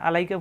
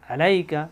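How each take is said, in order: First: It starts with a light glottal catch. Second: It starts with a pressed deep throat sound. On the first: The speaker calls it wrong. "আমরা যদি আলাইকা পড়ি তাহলে এটা হামজা হয়ে যায়।" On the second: The speaker calls it right. "কণ্ঠলিতে চাপ দিয়ে।"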